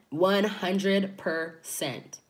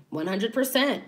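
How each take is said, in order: First: "One hundred percent" drawn out slowly, every word weighed; slow emphatic repeat. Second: Said in the usual way. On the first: Real, not acted. Vlogger doubling down to viewers, slow and emphatic. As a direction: lean on each word to seal it. Agreeing with her own point.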